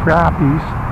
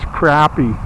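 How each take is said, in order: First: It uses the southern regional pronunciation. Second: It uses the northern regional pronunciation. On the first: "how they say in some places" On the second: "we better say it the right way"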